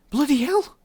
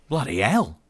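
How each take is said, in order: First: Very high, loud, stunned Irish; high-pitched Irish astonishment; heavy Irish accent. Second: Louder, higher flustered exclamation; flustered Australian outburst. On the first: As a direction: echo it in stunned, heavily Irish tones. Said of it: "in her own heavily Irish accent". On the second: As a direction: blurt it out in startled Australian. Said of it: "clearly flustered but obviously Australian". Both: A narrator's reading.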